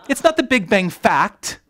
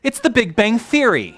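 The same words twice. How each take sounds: First: Emphatic denial, landing hard on "fact"; stress on fact. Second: High, loud line, falling on "Theory"; emphatic correction, driving home "Theory"; stress on Theory. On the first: Speaker ruling out another wrong word, stress on fact. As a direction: punch "fact" loudly, high-pitched line. Corrects fact versus theory for audience. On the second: Speaker giving the audience the right word, stress on Theory. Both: Real, not acted.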